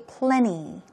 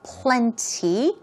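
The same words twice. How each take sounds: First: The T sound in the middle is softened away. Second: The T sound in the middle is clearly pronounced. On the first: "make it very soft, okay? And say plenty, plenty, more like a P L E N N Y" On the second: "You could stress that T sound by saying plenty"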